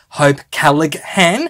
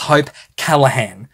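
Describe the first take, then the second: First: The G in the surname is pronounced. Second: The G in the surname is silent. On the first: The speaker calls it wrong. "because I was pronouncing every single letter in the surname" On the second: The speaker calls it right. "The G is actually silent in her surname"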